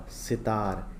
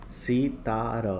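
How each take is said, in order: First: Said in the usual way. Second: Drawn-out सी-ता-र; syllable by syllable. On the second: Shown as a demonstration. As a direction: read सितार out in separate syllables. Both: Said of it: "पहले पढ़ लेते हैं".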